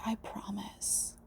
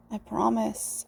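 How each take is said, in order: First: Very soft, slow whisper; hushed slow "I promise". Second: Said in the usual way. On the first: Real, not acted. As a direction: barely breathe "I promise". Repeated promises.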